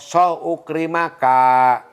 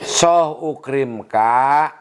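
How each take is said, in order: First: An 'a' vowel is heard between 'ukrim' and 'ka'. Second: No vowel is heard between 'ukrim' and 'ka'. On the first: The speaker calls it wrong. "tidak boleh dibaca" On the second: The speaker calls it right. "lebih baik"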